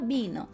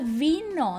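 First: The word starts with a b sound. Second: The word starts with a v sound. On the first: "não fala bino" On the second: "eu já ouvi nativo falando o som de V"

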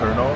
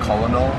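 First: It is said with two syllables, like kernel. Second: It is said with three syllables, col-o-nel. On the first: The speaker calls it right. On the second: The speaker calls it wrong. "ไม่ใช่"

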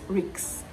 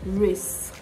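First: The word ends with a k sound followed by an s sound. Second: The word ends with an s sound followed by a k sound. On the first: The speaker calls it wrong. "Not ricks" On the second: The speaker calls it right. "Risk. Risk"

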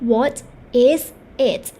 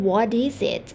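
First: Each word is said separately at normal speed. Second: It is said fast with is and it joined.

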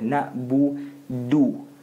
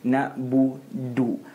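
No difference in how they are said.

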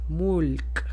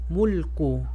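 First: The word ends on a bare consonant sound. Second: The word ends with a short u vowel. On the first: The word closes the phrase. "Cuando termino una palabra, no voy a pronunciar el harakat" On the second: The word is read with its full ending. "O si quiero pronunciarla, va a ser Q"

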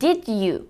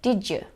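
First: The d and y sounds stay separate. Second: The d and y blend into a j sound. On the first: "şeklinde değil de" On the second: "Hafif bir C sesi katılıyor"

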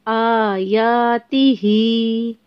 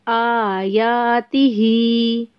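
Both takes have the same delivery.

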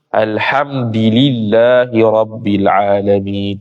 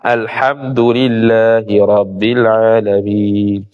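First: The d is followed by an i vowel. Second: The d is followed by a u vowel.

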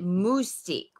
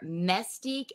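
First: The first syllable has a French-sounding vowel. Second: The first syllable sounds like 'mess'. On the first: "which is how a lot of the, you know, sort of Frenchy say it" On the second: "M-E-S-S Stique?"

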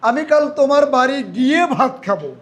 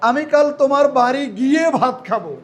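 First: The word গিয়ে is stressed. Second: The same.

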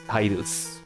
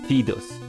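First: The name is said with an English pronunciation. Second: The name is said with a Japanese pronunciation. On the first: This is how native English speakers say it. "if you are native in English, it's Tidus" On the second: This is the original, proper form of the name. "the proper way to call him is the Japanese one... Sounds better"

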